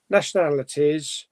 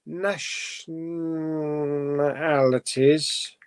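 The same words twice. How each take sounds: First: Said in the usual way. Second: "Nationalities" drawn out very slowly, syllable by syllable; sounded out. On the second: Shown as a demonstration. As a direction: spell "Nationalities" out slowly while reading it.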